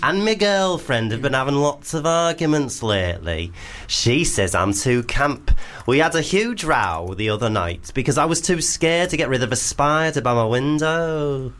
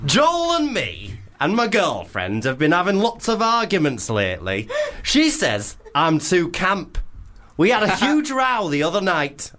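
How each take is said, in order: First: Hammed-up camp northern Leeds lilt; camp Leeds accent. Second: Higher-pitched, badly faked Leeds accent; hammed-up camp northern Leeds voice. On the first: Host rereads Tim's spider dilemma, camp Leeds accent. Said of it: "start again and make it more camp". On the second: Host reads Tim's dilemma in a camp Leeds accent. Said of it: "should we do a Leeds accent".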